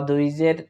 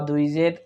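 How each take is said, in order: No difference in how they are said.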